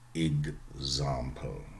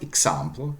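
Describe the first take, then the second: First: The x is a voiced gz sound. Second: The x is a voiceless ks sound. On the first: The speaker calls it right. "therefore it's voiced" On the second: The speaker calls it wrong. "A lot of people say example or something like this. No, it's not example"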